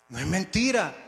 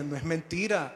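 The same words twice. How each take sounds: First: Louder, firmer stress on "mentira"; insist, leaning hard on "mentira"; firm insistence. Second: Said in the usual way. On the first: Retold or imitated. Inner voice corrects the man doubting God, insistent. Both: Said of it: "algo dentro me decía".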